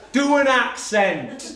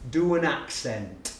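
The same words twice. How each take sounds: First: Loud, high, slow-stretched demand; pupil's demand repeated. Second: Slow, deliberate request; lightly voiced challenging schoolboy; pupil's demand. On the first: Retold or imitated. Pupil repeating himself to baffled teacher, loud demand. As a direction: bellow it word by word as a cheeky pupil. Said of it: "And he went". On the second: Pupil first challenging his teacher, slow demand. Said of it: "he looks at me and he goes".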